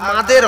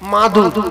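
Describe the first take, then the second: First: The last syllable has an 'e' vowel. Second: The last syllable has a 'u' vowel. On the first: The speaker calls it wrong. "আর মাদের হবে না" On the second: The speaker calls it right. "মাঝখান থেকে মাদুর মনে থাকবে"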